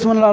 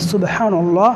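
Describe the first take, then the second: First: It is said quickly and hurriedly. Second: It is said slowly and carefully. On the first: The speaker calls it wrong. "এরকম করে দৌড়ে বাড়ি যা দিতে পারলে হলো" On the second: The speaker calls it right. "এটা বলতে হবে"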